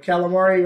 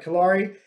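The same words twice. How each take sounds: First: "calamari" said like the squid dish, with an extra "ma"; mispronounced surname. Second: Said in the usual way. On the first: Shown as a demonstration. Fighter showing how his name got twisted, mispronounced surname. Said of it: "right, [name]". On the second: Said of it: "my last name is".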